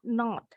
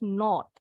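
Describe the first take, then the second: First: The vowel is open and unrounded, like 'ah'. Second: The vowel is said with more rounded lips. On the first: "Kalau orang Amerika bunyi O-nya seperti A" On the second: "Tapi kalau orang Inggris, ... Lebih bulat bibirnya"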